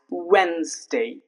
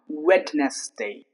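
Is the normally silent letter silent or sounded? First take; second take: silent; sounded. First: The silent letter is left unpronounced. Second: The silent letter is clearly pronounced. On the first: The speaker calls it right. "normally it's spoken, it's pronounced as" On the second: The speaker calls it wrong. "if we pronounce the silent letter, then it would become"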